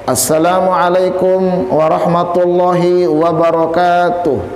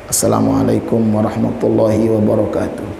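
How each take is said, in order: First: It is said loudly and with strong force. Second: It is said softly and with little force. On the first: A preacher greeting the audience. "dia punya kekuatan, punya power dia" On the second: A Quran reciter greeting before reciting. "Kecil dia salamnya"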